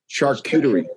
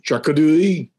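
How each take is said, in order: First: It is said in a plain English accent. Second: It is said in a French accent.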